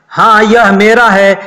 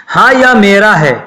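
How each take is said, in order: The two takes are said the same way.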